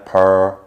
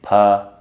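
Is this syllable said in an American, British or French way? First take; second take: American; British. First: The syllable has a rounded American er vowel. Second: The syllable has a British English er vowel. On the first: "in America per, more rounded" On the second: "Like in Britain we say per"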